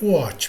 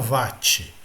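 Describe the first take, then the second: First: The word is said with its original pronunciation. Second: The word is said with a Brazilian Portuguese pronunciation. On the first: The speaker calls it right. "a pronúncia correta seria watt" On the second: The speaker calls it wrong. "em português brasileiro, todo mundo fala watt"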